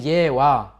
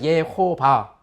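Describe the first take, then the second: First: The name is said without a v sound. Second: The name is said with a v sound. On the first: "영어식으로 해서 이제 예와 하는데" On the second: "아람어로 요거를 V 발음해가지고 예호바"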